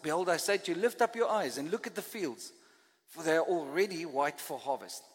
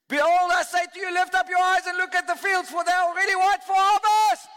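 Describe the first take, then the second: First: It is read in a flat, plain way. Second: It is read with exclamatory, excited energy.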